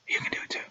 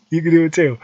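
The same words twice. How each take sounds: First: Soft unvoiced whisper. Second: Said in the usual way. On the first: Encouraging listeners to follow him, intimate whisper. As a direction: lean in and whisper it. Whispered then repeated plainly.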